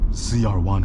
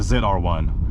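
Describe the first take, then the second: First: The letter Z is said as zee. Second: The letter Z is said as zed.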